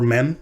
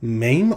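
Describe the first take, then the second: First: The word is said quickly and clipped. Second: The word is said at a slow, careful pace.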